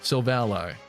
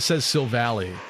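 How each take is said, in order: First: The name ends sounding like the word 'ally'. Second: The name ends sounding like 'valley'. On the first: This follows the base of the name. "I think it's supposed to be ally" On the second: This is how most people say it. "everyone says Silvally, which I think flows better"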